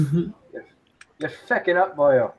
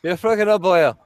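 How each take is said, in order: First: Slow, drawn-out mock Irish; a hint of a slow Irish brogue; mock Irish accent. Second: Mock Irish accent. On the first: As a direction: drag out the words like a stage Irishman. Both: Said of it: "I'm too Irish".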